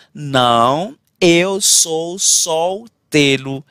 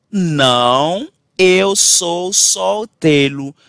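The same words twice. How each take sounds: The two takes are said the same way.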